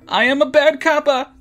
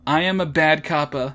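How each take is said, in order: First: It is said loudly. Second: It is said quietly.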